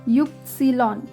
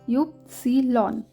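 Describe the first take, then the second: No difference in how they are said.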